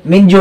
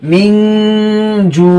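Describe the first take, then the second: First: Said in the usual way. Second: মিন with the n held as a long nasal hum, then জু drawn out; hidden n, ghunnah. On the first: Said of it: "মিন জু হবে না". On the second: Shown as a demonstration. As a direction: recite মিন জু slowly, humming the hidden n. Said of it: "মিন গোপন করতে হবে".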